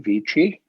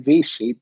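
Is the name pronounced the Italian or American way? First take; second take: Italian; American. First: The name is pronounced the Italian way. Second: The name is pronounced the Americanized way.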